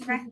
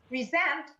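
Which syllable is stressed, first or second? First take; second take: first; second. First: The stress is on the first syllable. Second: The stress is on the second syllable. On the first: It is used as a noun. "the first level present" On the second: It is used as a verb. "that's the second stress"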